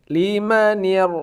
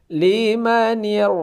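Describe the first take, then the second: Both takes have the same delivery.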